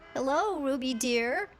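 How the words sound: It is said in a rough, squeaky voice.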